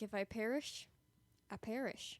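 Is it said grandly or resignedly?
resignedly. It sounds quiet and resigned.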